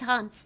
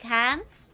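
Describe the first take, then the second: First: The name is said with a German accent. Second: The name is said with an American accent. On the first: The speaker calls it right. "yeah, it's Hans" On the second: The speaker calls it wrong. "She's like, Hans?"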